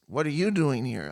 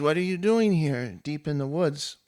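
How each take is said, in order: First: "YOU" stands out, pitch falling after it; stress on YOU. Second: Coy question with DOING lifted; lightly voiced coy nymph. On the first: Retold or imitated. Warrior returns the lady's question, stress on YOU. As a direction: turn the question back with weight on YOU. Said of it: "And he says". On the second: Nymph coyly greets the warrior in the woods, lightly coy. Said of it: "she kinda coyly walks into the light".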